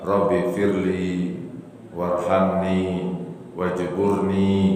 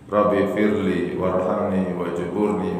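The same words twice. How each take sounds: First: It is said slowly with long final vowels. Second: It is said fast with short final vowels. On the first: The speaker calls it right. "Yang betulnya apa? ... panjangkan pakai i-nya panjang" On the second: The speaker calls it wrong. "kalau cepat ya pasti bacanya mungkin kurang betul ... Itu salah bacanya"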